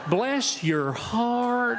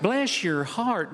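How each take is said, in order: First: Drawn-out, sugary Southern belle "Bless your heart"; sweet Southern lady. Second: Sweet Southern lady. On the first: Speaker mimics a Southern woman's sweet warning to a room of students. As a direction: stretch it out slow and syrupy, all sweetness over a threat. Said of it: "when a Southern woman says them". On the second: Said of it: "Bless your heart" means you're about to be". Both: Retold or imitated.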